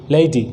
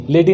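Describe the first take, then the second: First: "लेडी" with a gliding "lay-ee" first vowel, lower; correct pronunciation. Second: "लेडी" with a pure short e, no glide; wrong pronunciation. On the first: Teacher drilling an l word, correct pronunciation. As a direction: say "लेडी" as "LEI-dee". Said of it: "लेडी नहीं". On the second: Teacher showing students the reading to avoid, wrong pronunciation. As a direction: say "लेडी" as flat "leh-dee". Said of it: "नहीं". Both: Shown as a demonstration.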